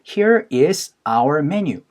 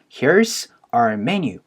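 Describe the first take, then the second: First: Here and is are said as separate words. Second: Here and is merge into one syllable. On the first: "here is our menu 라고 얘기를 하는 거를" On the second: "어포쇼피 S로 줄여서"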